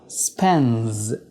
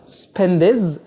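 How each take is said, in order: First: The d sound is dropped. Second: The d sound is clearly pronounced. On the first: The speaker calls it right. "بشيل حرف الدي اعتبره كانه مش موجود" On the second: The speaker calls it wrong. "بدل ما اقول"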